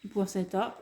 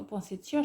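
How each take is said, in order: First: "Poinsettia" without the i, ending in -ta; alternative pronunciation. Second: "poinsettia" with the i sounded, ending in -tia; corrected pronunciation. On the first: Vlogger unsure of the plant's name, trying a variant pronunciation. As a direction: say "Poinsettia" as "pain-setta". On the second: Vlogger settling on what she thinks one says, corrected pronunciation. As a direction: say "poinsettia" as "pwain-set-ya". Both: Shown as a demonstration. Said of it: "je crois qu'on dit".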